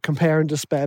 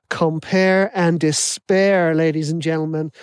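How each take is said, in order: First: Said in the usual way. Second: Put-on slow, drawn-out American accent. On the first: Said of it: "And I loved that". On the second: Podcast host's catchphrase, imitated in an American accent. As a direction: announce it like an American hype host, stretching despair. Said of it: "so I'm gonna put an American accent on".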